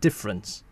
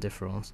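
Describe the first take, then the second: First: It is pronounced fully in English. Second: It is pronounced fully in French. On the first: "you might as well call it difference" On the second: "I would just say the French pronunciation"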